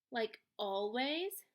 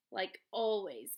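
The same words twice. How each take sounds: First: "Like always" drawn out slowly, rising on "always". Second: "like always" slow, lower and falling on "always". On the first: Son rethinking his words to Mom, "Like always" slow and rising. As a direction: stretch "Like always", lift "always". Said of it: "might not have been the best choice". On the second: Son hinting what his grades mean, "like always" slow and falling. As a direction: weigh "like always", drop "always". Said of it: "she knows better than anyone what". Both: A narrator's reading.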